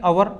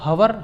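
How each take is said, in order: First: The word begins with a vowel, no h. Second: The word begins with an audible h sound. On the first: The speaker calls it right. "इसको कहेंगे अवर, ये silent है" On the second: The speaker calls it wrong. "हवर नहीं कहेंगे"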